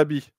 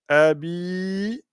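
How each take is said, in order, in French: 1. La voyelle finale est courte. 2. La voyelle finale est allongée. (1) "on dira pas tabbat yada abi" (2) "parce qu'il y a une prolongation"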